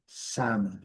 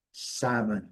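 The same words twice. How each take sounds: The two takes are said the same way.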